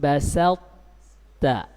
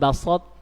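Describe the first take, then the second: First: The s is plain, without a raised tongue. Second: The s is emphatic, with a raised tongue. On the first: The speaker calls it right. "Tetap dibaca la im basalta" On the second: The speaker calls it wrong. "Jangan basot, ini salah ya"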